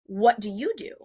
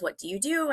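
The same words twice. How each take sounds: First: "you" stressed, rising at the end. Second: Said in the usual way. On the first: Retold or imitated. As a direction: turn the question back with weight on "you". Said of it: "and I go to him". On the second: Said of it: "And he goes".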